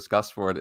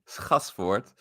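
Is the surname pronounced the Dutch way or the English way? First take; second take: English; Dutch. First: The name is said with English pronunciation. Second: The name is said with Dutch pronunciation. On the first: "is perfectly fine" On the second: "in Dutch we would say"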